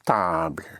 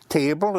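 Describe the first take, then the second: First: It is pronounced with French sounds. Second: It is pronounced with English sounds. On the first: "is table" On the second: "Table is"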